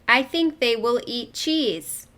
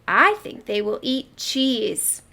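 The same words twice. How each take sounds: First: It is read flatly, without expression. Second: It is read lively, with expression.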